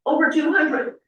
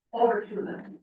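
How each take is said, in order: First: Over two hundred, louder and higher, proudly stressed on two; proud emphasis. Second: Said in the usual way. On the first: Real, not acted. Repeating the served count.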